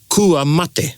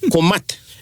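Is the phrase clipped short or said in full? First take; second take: full; clipped. First: The phrase is said fully with every vowel. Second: The phrase is clipped, dropping the final vowel. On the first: "Ko mat is kua mate" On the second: "Ko mat is kua mate"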